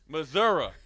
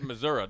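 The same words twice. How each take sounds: First: Every syllable is carefully and fully pronounced. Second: The final part of the word is cut short. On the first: "you guys enunciate everything to a T" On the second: "They don't even want to say the last re"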